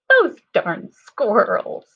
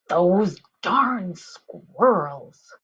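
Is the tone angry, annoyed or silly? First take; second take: silly; annoyed. First: It is said in a silly voice. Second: It is said in an annoyed voice.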